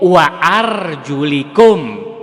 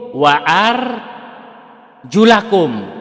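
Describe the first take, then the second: First: The vowel after 'arjul' is an 'i'. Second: The vowel after 'arjul' is an 'a'. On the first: The word links to the nearest word. "jika dibaca jar" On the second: The word links to a verb further back. "jika kita membaca nasab atau fathah pada kata arjulakum"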